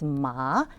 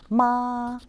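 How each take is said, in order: First: The pitch rises from middle to high. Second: The pitch stays high and level. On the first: It means learner. "With the M A second tone up" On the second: It means mother. "if we pronounce the first tone with this character, that means mother"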